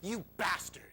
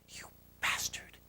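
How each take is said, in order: First: It is said aloud in a normal voice. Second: It is whispered very quietly.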